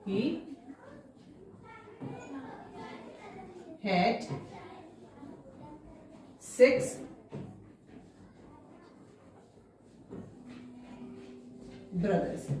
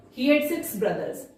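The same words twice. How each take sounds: First: Each word spaced out for writing; slow dictation. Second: Said in the usual way. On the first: Shown as a demonstration. Teacher dictating to pupils, word by word and slow. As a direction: dictate one word at a time to the class. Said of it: "teacher dictating word by word". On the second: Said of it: "teacher repeats sentence normally".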